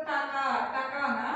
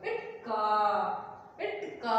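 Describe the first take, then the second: First: టకా with a full vowel after T; wrong reading demo. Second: ఇట్ stopped short, pause, long కా; pollu consonant demo. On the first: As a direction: run టకా together as two open syllables, questioning. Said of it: "టకా కాదు కదా". ("టకా": ట్ పొల్లు లేకుండా అచ్చుతో) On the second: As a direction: say ఇట్ కా with a vowelless T, then draw out కా. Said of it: "పై అక్షరాన్ని పొల్లుగా పలకాలి". ("ఇట్ కా": ట్ పొల్లుగా ఆపి, కా సాగదీసి) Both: Shown as a demonstration.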